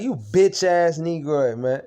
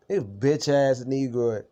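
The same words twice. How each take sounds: First: Louder, higher, spitting the insult out; yelling the insult at him again; retold angry yell. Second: Slow, each word drawn out and weighed; slow emphatic repeat. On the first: Venting at his roommate, a loud angry insult. Ranting about roommate's betrayal. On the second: Retold or imitated. Repeating the insult to roommate, slow and deliberate. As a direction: savor every word of the insult.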